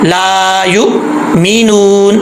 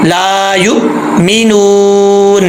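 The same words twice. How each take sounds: Both takes have the same delivery.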